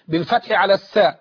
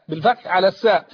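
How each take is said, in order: The two takes are said the same way.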